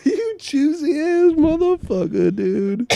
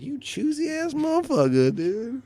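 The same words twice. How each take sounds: First: Very loud, high comic insult; full-volume mock indignation; mock outraged shout. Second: High-pitched comic indignation; high, mock-offended outburst; mock outraged insult. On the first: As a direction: yell it at the top of your voice. Same insult repeated much louder. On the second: Acted insult, first take.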